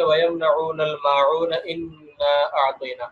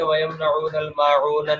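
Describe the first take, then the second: First: وَيَمْنَعُونَ الْمَاعُونَ flowing straight into إِنَّا أَعْطَيْنَا, the kasra on إِنَّا kept; joined recitation. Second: وَيَمْنَعُونَ الْمَاعُونَ read fast, stopped dead with no link onward; the wrong way, rushed, no joining to the next verse. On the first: Teacher showing students the correct way, joined in one breath. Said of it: "بلکہ". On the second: Teacher showing students how not to read, rushed and unjoined. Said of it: "ہم اس کو یوں نہیں پڑھ سکتے". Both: Shown as a demonstration.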